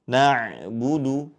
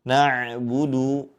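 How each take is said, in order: Both takes have the same delivery.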